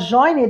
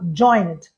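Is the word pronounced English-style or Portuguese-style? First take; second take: Portuguese-style; English-style. First: It is read with Portuguese spelling sounds. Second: It is said with English sounds. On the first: The speaker calls it wrong. "antes da pessoa falar errado" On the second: The speaker calls it right. "eu já falo joined"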